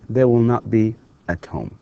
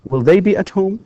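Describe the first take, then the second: First: They will not be at home, falling at the end; teacher's negative. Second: Will they be at home rising high on be; teacher's rising question; question rise. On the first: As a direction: settle down into the negative. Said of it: "negative drill". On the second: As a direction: lift into a question. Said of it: "question drill". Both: Shown as a demonstration.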